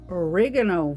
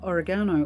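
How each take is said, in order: First: It is said with an American pronunciation. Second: It is said with a British pronunciation.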